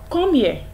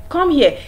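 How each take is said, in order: First: It is said in a stern, reproachful tone. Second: It is said in a stern, reproachful tone.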